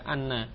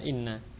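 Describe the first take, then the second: First: The first vowel is an open 'a' sound. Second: The first vowel is a close 'i' sound. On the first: The speaker calls it right. "sehingga dibaca anna" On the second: The speaker calls it wrong. "tidak boleh dibaca inna"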